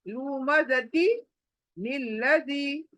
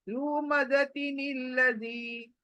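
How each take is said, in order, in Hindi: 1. शब्दों के बीच एक विराम है। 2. शब्द बिना किसी विराम के आपस में जुड़े हुए हैं। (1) "ऐसे अलग अलग करके नहीं पढ़ना है" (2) "शुरू करना है, आखिर करना है"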